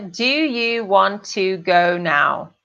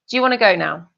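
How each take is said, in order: First: The question is said slowly and clearly. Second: The question is said quickly and run together. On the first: This makes it easier to understand. "eu vou falar bem devagar agora" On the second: This is how it is usually said in daily life. "a primeira forma que eu pronunciei a frase é muito mais comum"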